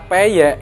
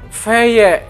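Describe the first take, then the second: First: The word begins with a P sound. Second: The word begins with an F sound. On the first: This is the ordinary Indonesian pronunciation. "orang Indonesia itu misalkan kata e, tempe, sepeda, peyek" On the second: This is how Arabic speakers, who lack a P sound, say it.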